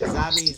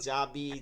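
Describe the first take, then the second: First: The j sound has a regional pronunciation. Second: The j sound has a standard pronunciation. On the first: The speaker calls it wrong. "আঞ্চলিক আপনার ভাষার সমস্যা" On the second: The speaker calls it right. "আমরা যখন অন্তর জ বলি"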